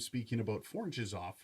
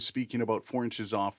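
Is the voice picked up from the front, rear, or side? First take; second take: rear; side. First: The voice is picked up from the rear. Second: The voice is picked up from the side. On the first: "four inches off from the rear of the microphone" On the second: "four inches off from the side of the microphone"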